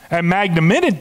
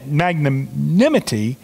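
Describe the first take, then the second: First: Magnanimity half swallowed and cut off; stumbled word. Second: Slow, every syllable of "magnanimity" spelled out; careful restart. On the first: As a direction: trip over "magnanimity" and break off. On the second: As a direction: say "magnanimity" again slowly and clearly, mag-na-ni-mi-ty. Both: Real, not acted.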